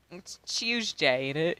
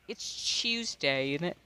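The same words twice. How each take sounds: First: Slow mock-British "It's Tuesday, ain't it?". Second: Slow British impression. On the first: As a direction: drawl it like a Londoner, slow. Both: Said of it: "in my British tone".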